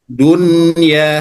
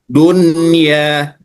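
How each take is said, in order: Both takes have the same delivery.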